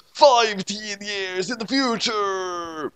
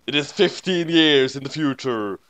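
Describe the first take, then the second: First: High, slow dramatic proclamation; dramatic announcer. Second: Said in the usual way. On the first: A narrator's reading. Repeating the vision for drama, slow high proclamation. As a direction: stretch it out like a movie trailer.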